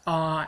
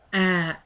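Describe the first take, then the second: First: The vowel is the open back sound of bra. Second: The vowel is the front sound of brat. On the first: The speaker calls it wrong. "as in bra" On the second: The speaker calls it right. "when it's really ah as in brat"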